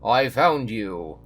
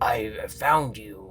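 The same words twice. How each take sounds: First: It is said in a Dracula-like put-on voice. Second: It is said in a gruff alligator put-on voice. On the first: "That's that's like a Dracula voice" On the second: "What's my Monty voice?"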